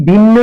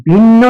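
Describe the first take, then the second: Both takes have the same delivery.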